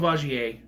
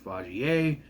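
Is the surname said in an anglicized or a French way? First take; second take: anglicized; French. First: The surname is said with an anglicized pronunciation. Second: The surname is said with a French pronunciation. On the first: The speaker calls it wrong. "which I've been, uh, been pronouncing wrong the entire time" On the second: The speaker calls it right. "it's Vagier"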